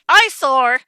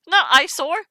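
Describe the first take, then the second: First: Loud, falling exclamation of EYESORE; incredulous outburst. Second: High, rising query on EYESORE; baffled question. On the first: Reader repeating the odd word eyesore, loud incredulous blurt. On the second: Reader querying the word eyesore, baffled rising tone. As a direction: lift EYESORE up in disbelief. Queries odd word just read. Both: Real, not acted.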